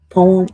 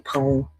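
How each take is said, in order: First: "Poem" said before the fix; first take of "Poem" ahead of the correction; first try at poem. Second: "poem" said again, lower and softer; "poem" repeated lower and quieter as the fix; corrected poem. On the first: Correcting himself on the word "Poem", the first take. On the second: Correcting himself on the word "poem", the lower softer retake. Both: Shown as a demonstration. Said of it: "Poem, I mean".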